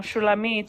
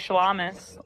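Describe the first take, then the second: First: The name is said ending in a t sound. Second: The name is said ending in an s sound.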